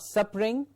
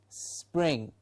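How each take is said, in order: First: The start is not a tight s-p-r cluster. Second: A small s runs straight into pring. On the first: The speaker calls it wrong. "not spring" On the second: The speaker calls it right. "before pring just put a small s"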